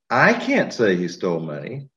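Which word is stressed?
I. The word "I" is stressed. Someone else might say it.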